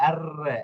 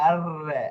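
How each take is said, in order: Both takes have the same delivery.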